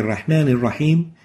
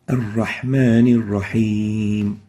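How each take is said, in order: First: The breathy h sound is cut short. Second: The breathy h sound is drawn out longer. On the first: The speaker calls it wrong. "is not right" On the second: The speaker calls it right. "giving it some length"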